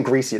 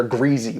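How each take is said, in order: First: Said in the usual way. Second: "greasy" with a voiced Z in the middle; Z sound in greasy. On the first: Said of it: "not even greasy. They're greasy with a". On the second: Shown as a demonstration. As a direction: say "greasy" as "greezy". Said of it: "with a Z".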